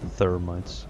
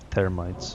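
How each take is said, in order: First: The word begins with a th sound. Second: The word begins with a plain t sound. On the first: "not thermites" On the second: "if I was a Turk, I wouldn't be able to pronounce th. I would say termites"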